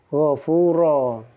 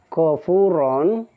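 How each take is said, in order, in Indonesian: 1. Kata ini berakhir dengan vokal panjang, tanpa n. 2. Kata ini berakhir dengan vokal diikuti n. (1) "dibacanya gofuro" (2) "ini fathah tanwin ya"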